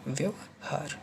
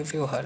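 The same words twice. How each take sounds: First: व्यवहार slowly, "vyav... haar"; correct split form. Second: व्यवहार as "vyohaar"; wrong run-together form. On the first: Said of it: "actually में होता है". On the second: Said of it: "व्यवहार नहीं होता है". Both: Shown as a demonstration.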